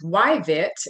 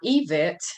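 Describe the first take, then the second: First: The initial Y sound is clearly pronounced. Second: The initial Y sound is silent. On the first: The speaker calls it right. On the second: The speaker calls it wrong.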